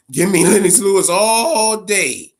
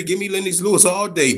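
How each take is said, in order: First: "all day" stretched slowly, louder, with a laugh; laughing emphasis. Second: Said in the usual way. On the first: Real, not acted. Streamer repeating his Lennox Lewis pick, laughing and emphatic. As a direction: lean in and savour "all day".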